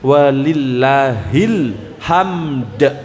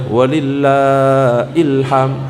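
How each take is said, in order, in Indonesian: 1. Pisahnya setelah lillahil, jadi membentuk hamd. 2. Pisahnya setelah lillah, jadi membentuk ilham. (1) "pantul ya, sing bener gitu" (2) "Bukan ilham loh ya"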